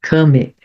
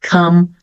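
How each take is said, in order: First: An extra vowel is sounded at the end. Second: The word ends on the consonant, no vowel. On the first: The speaker calls it wrong. "Então eu não vou falar done, some, love, come" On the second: The speaker calls it right. "todas as últimas letras de cada palavra, ou não vão aparecer, vão ser mudas"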